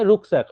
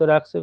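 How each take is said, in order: First: The first vowel is a rounded 'oo' sound. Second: The first vowel is an open 'ah' sound. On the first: The speaker calls it right. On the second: The speaker calls it wrong. "রাক নয়"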